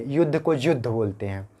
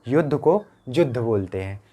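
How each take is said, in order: The two takes are said the same way.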